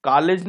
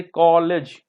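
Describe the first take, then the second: First: कॉलेज said as "kaa-lej"; wrong-example कॉलेज with आ in place of ऑ; mispronunciation demonstration. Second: कॉलेज with a rounded, drawn-out "aw"; correct vowel demonstration. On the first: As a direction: flatten the vowel of कॉलेज to a long "aa". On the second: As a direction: say कॉलेज slowly as "kaw-lej". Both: Shown as a demonstration. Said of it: "कॉलेज नहीं".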